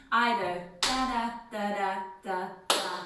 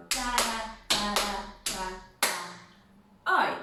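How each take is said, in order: First: Said in the usual way. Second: Da da count drawn out slower, oi on the end; slow chanted count with a punchy oi; slower rhythm. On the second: Shown as a demonstration. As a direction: stretch the beat out slowly. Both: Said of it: "Either ... or we go".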